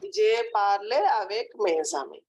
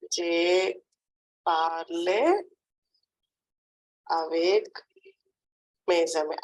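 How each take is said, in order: First: Said in the usual way. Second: Je, parle, avec, mes amis with long pauses between; word-by-word dictation. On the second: Shown as a demonstration. Teacher dictates a French sentence to a pupil, word by word. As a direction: break it into separate chunks for a learner. Teacher repeats it slowly in parts.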